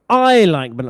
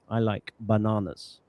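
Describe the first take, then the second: First: The stress falls on the first word. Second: The stress falls on the last word. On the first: "with the stress on word number one" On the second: "the normal way to pronounce this, you would stress word number three"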